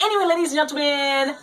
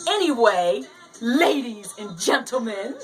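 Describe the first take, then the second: First: The phrase is said quickly. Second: The phrase is said slowly. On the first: "did I say that fast enough?" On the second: "Let me slow it down"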